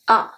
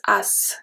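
First: The word ends on the vowel, no S sound. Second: The word ends with an audible S sound. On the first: The speaker calls it right. "We don't pronounce the S at the end" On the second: The speaker calls it wrong. "is not pronounced as, it's not pronounced like that"

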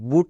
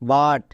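First: The vowel is a long 'oo' sound. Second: The vowel is a short 'uh' sound. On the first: The speaker calls it wrong. "বুট না" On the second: The speaker calls it right. "বাট। ইউ এর জন্য আকার হবে।"

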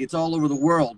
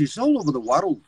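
First: It is said in an American accent. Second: It is said in a Scottish accent. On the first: "world in American English is like" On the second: "but in Scottish"

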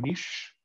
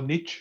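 First: It is pronounced in a non-American way. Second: It is pronounced in an American way.

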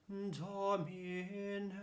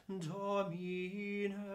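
The two takes are said the same way.

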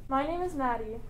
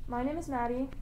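No difference in how they are said.

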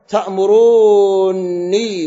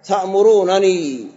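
First: The two n sounds merge into one long n. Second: The two n sounds are pronounced separately. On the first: "وقراءة إدغام" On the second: "وقراءة كرفكنا"

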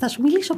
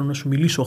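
First: The voice is pitched very high. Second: The voice is pitched low and deep. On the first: "μπορώ επίσης να σου μιλήσω πάρα πολύ ψηλά" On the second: "μπορώ να σου μιλήσω χαμηλό, σαν να μην πω σοβαρύτονο"

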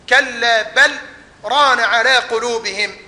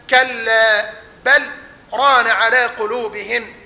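Both takes have the same delivery.

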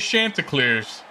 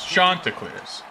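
First: The word is said with plain English sounds. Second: The word is said with French-sounding pronunciation. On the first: The speaker calls it wrong. "They pronounce it wrong in the game, too. They say Chanticleers" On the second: The speaker calls it right. "Like you're French"

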